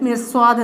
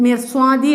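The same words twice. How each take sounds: First: "മിർസ്വാദ്" ending on d without the i; stopped ending. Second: "മിർസ്വാദി" with the final i sounded; as written. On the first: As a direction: close "മിർസ്വാദ്" on the final consonant. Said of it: "sound മിർസ്വാദ് എന്ന് വെച്ച്". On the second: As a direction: keep the closing vowel on "മിർസ്വാദി". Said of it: "ഇവിടെ മിർസ്വാദി എന്നാണ് വന്നത്". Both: Shown as a demonstration.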